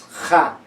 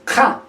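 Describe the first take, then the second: First: Ja said as a soft fricative. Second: Ja said as a hard uvular stop. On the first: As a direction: let ja slide out softly. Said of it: "esta ja se hace más suave". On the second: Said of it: "ya no es ja". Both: Shown as a demonstration.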